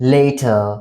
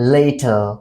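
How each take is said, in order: First: The word sounds like later. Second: The same.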